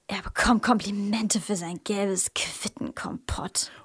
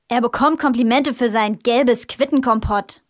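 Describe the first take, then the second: First: It is said in a contemptuous tone. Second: It is said in an angry tone.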